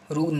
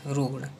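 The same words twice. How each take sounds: First: रुग्ण ending in plain N, "rugn"; wrong dental N. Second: रुग्ण ending in curled-tongue ṇ; correct retroflex N. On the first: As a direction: say रुग्ण with N on the teeth. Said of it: "ना नहीं use करना है". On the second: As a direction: curl the tongue for the end of रुग्ण. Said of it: "रुग्ण नहीं". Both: Shown as a demonstration.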